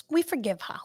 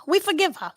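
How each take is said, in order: First: Said in the usual way. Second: "we forgive her" pushed higher and louder; louder forgiving repeat. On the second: Shown as a demonstration. Telling the listener again, more firmly, that they forgive her.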